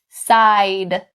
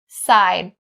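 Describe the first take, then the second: First: The final D sound is fully released. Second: The final D is held without release.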